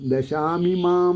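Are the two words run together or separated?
together. The two words are run together as one. This is how the text is printed. "ദശാമിമാം എന്നാണ് വാക്ക് പ്രിണ്ട്"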